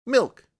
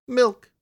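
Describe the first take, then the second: First: High, louder insistent kitten "Milk"; impatient kitten. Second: High, loud little kitten cry; kitten's plea. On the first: Kitten refusing bread, demanding milk, high and insistent. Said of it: "it said impatiently". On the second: Kitten begging the poor writer for milk, high and pleading. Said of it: "said the kitten". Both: Acted.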